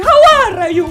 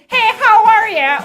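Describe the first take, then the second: First: Loud, higher mock Italian greeting; Italian accent. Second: Loud, drawn-out American greeting; American accent. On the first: Imagining Jerry as Italian, exaggerated Italian accent. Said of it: "American accent or Italian accent". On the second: Acted. Imagining Jerry as American, hammed-up American accent. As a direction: exaggerate an American accent, slow and big. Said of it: "if he has an American accent".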